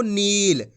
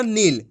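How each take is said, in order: First: नील with the ee held long; drawn-out long ee. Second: नील cut short to "nil", with a brief i. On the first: Teacher shows how to read it, long ee drawn out. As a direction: stretch the vowel in नील. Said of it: "इसी तरीके से पढ़ना आपको". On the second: Teacher shows how not to read it, vowel short. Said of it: "छोटी ई की मात्रा का उच्चारण". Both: Shown as a demonstration.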